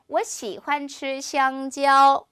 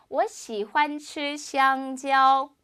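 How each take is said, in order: Both takes have the same delivery.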